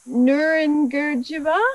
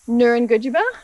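First: The word is said slowly. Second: The word is said fast.

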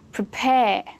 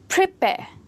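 First: The stress is on the second syllable. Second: The stress is on the first syllable. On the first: The speaker calls it right. "That's more natural, isn't it?" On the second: The speaker calls it wrong. "Is it same as adjectives and nouns, stressed on the first syllable?"

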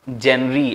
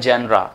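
First: The word ends in an 'ee' sound. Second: The word ends in an 'ah' sound. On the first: The speaker calls it wrong. "बहुत से लोग इसे pronounce ही wrong करते हैं" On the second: The speaker calls it right. "पर इसे pronounce किया जाता है जेनरा"

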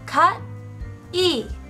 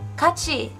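First: The two syllables are said separately and distinctly. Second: The two syllables blend into one smooth word. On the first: "Separately, their characters are pronounced as" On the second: "Together, it's"

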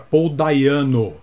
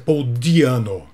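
First: The surname begins with a 'dai' sound. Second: The surname begins with a 'dee' sound. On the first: The speaker calls it wrong. "falávamos errado o nome do vocalista" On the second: The speaker calls it right. "aqui no caso é [name]"

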